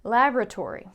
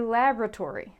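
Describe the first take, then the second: First: It is said in an American accent. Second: It is said in an American accent.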